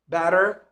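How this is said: It is said in an American accent.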